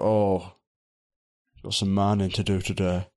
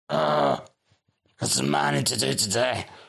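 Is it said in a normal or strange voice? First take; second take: normal; strange. First: It is said in a normal voice. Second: It is said in a strange voice.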